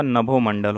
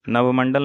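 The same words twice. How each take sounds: First: Said in the usual way. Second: नवमंडल with no bho syllable; wrong pronunciation. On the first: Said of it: "होता है". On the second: Shown as a demonstration. Teacher shows students the error, नवमंडल without bho. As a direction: say नवमंडल as nab-mandal. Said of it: "नहीं होगा".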